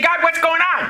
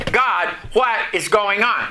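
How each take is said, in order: First: Pitched up, urgent cry to God; panicked driver in the rain cries out to God, alarmed; alarmed plea. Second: Said in the usual way. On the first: Retold or imitated. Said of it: "and I'm saying". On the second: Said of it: "The question was".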